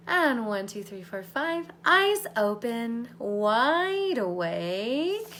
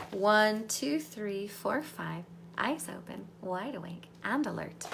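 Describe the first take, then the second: First: Louder, drawn-out wake-up call; waking count. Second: Said in the usual way. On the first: Acted. Coach counting the group back awake, louder and drawn out. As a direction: bring them up and out, slowly.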